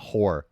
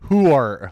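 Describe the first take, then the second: First: It is said in a plain, ordinary accent. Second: It is said in a Sopranos New Jersey accent.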